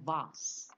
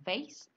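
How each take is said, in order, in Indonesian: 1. Ini diucapkan dengan pengucapan Inggris. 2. Ini diucapkan dengan pengucapan Amerika. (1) "British bilangnya" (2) "Orang Amerika bilang"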